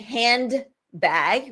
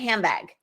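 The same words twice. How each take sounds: First: Every sound in the word is pronounced separately. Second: Neighbouring sounds blend into one another. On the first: "instead of saying handbag" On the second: "we say handbag"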